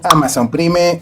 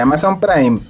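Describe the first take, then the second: First: It is pronounced as it is spelled. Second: It is pronounced the original English way. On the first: "pronuncian una palabra extranjera como está escrito" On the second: "en lugar de"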